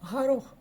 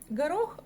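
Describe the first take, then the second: First: The first consonant is a soft throaty g. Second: The first consonant is a plain hard g.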